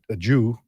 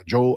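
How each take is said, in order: First: The final vowel sounds like 'oo'. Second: The final vowel sounds like 'oh'. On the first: The speaker calls it wrong. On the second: The speaker calls it right. "no, no, no, no, no, it's a Joe"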